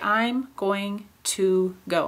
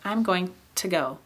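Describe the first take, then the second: First: The word 'to' is said with a full vowel. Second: The word 'to' is reduced to a weak form. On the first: "I don't usually say" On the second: "To often just becomes to"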